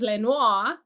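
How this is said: The name is said with a French accent. "We could pronounce it the French way"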